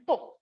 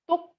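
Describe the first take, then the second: First: The word is said on a falling tone. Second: The word is said on a low tone. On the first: "tone five is a falling tone" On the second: "tone two is low tone"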